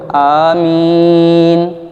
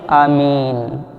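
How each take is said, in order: First: It is said loudly. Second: It is said quietly.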